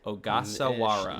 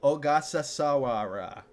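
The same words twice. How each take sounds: First: The name is said with its normal syllables. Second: The name is said with extra syllables added. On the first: The speaker calls it right. "Got it. I was adding too many syllables" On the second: The speaker calls it wrong. "That's not how you say it"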